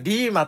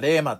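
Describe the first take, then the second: First: The first vowel sounds like 'ee'. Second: The first vowel sounds like 'eh'. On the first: This is the modern way of saying it. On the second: This is the older way of saying it.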